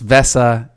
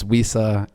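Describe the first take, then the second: First: The name begins with a V sound. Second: The name begins with a W sound. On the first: This is how the Germans say it. The speaker calls it right. "the Germans they call it uh, Vesa" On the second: This is how the speakers usually say it. The speaker calls it wrong. "we aren't even pronouncing it correctly"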